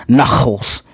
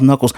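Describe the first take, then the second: First: Knuckles said as a stereotypical Jewish mom would; stereotypical Jewish mom pronunciation. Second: Said in the usual way. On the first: Retold or imitated. Mocking how a TV mom calls Knuckles, stereotypical Jewish pronunciation. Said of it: "The mom is a stereotypical Jewish mom". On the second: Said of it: "she calls Knuckles Knuckles".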